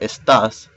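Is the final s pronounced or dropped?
pronounced. The final s is pronounced.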